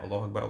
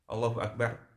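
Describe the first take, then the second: First: It is said quickly, with no pause after. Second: It is said slowly, followed by a pause. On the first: Those behind may not keep up. The speaker calls it wrong. "tidak seperti itu tapi ada jedanya" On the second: Those behind have time to follow. The speaker calls it right. "slow dulu"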